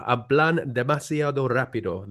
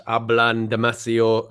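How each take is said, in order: First: "hablan demasiado rápido" said slowly and softly in Spanish; slow, clear Spanish "hablan demasiado rápido"; Spanish phrase. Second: "Hablan demasiado" said slowly in Spanish; Spanish phrase. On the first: Completing the Spanish saying for the listeners, slowly. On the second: Quoting a Spanish saying, said slowly. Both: Shown as a demonstration. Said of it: "As they say in Spanish".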